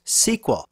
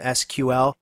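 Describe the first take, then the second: First: It is said as one word, sequel. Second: It is said as three separate letters. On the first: "was in point of fact pronounced S Q L" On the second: "I tend to refer to the language as an initialism"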